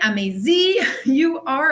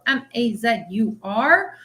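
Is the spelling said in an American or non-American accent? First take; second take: American; non-American. First: The letters are spelled in an American accent. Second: The letters are spelled in a non-American accent.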